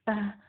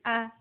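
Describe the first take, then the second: First: Breath keeps flowing out after the vowel. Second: The vowel stops sharply with no breath. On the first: The speaker calls it wrong. "jangan sambil mengalirkan nafas. Ah, ah, tidak" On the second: The speaker calls it right. "tapi a, a seperti itu"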